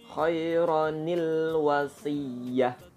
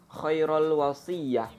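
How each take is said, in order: First: The first word ends in 'onil' before 'wasiyah'. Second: The first word ends in 'ul' before 'wasiyah'. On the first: The speaker calls it right. "yang betul adalah" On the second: The speaker calls it wrong. "itu keliru"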